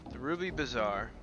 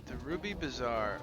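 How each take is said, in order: Both takes have the same delivery.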